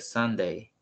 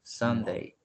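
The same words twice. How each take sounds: The two takes are said the same way.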